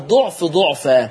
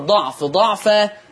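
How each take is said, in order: First: The first consonant is followed by a 'u' vowel. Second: The first consonant is followed by an 'a' vowel. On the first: "ومنها ما يقرأ فيه بوجه الضم" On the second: "منها ما يقرأ بالفتح بوجه الفتح"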